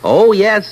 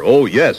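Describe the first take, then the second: First: It is said in a normal voice. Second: It is said in a great big bear voice.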